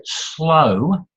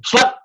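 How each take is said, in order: First: "slow" drawn right out; said slowly. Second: "slow" in one quick, higher burst; said fast. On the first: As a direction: stretch the vowel of "slow" long and lazily. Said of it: "cannot be said fast". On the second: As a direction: fire out "slow" abruptly short. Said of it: "You can't say slow". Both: Shown as a demonstration.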